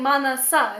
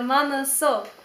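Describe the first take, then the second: First: The final vowel sounds like 'ah'. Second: The final vowel sounds like 'oh'. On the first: The speaker calls it wrong. "I was saying manasa" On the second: The speaker calls it right. "instead of manaso"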